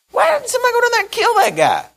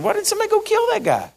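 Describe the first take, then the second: First: Put-on high, indignant young shepherd; David's indignant voice. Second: Put-on high and quick, blunt young David; David's blunt question. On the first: David asks why nobody killed the giant, high and indignant. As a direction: pitch way up, outraged at the taunt. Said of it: "He says". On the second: David bluntly asks the soldiers, high and fast. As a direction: rattle it off high, as if it's obvious. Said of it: "he just said".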